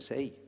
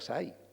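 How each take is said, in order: First: It is said the way people in Seville say it. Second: It is said in the speaker's own Andalusian accent. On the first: This is how people in Seville say it. "y aquí dicen seis" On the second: This is how the speaker said it before Seville. "Yo decía sai"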